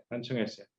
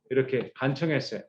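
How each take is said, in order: First: 간청했어요 repeated much softer, falling; quiet repeat of 간청했어요; soft echo. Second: Said in the usual way. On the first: Shown as a demonstration. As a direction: drop to a near-hush on 간청했어요.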